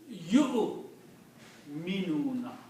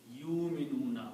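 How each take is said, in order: First: The first syllable ends with a glottal catch. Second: The first syllable sounds like English 'you'. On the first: The speaker calls it right. "Ya will combine with the Hamza only. Vaw is not to be pronounced" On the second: The speaker calls it wrong. "We should not pronounce you like Y O U"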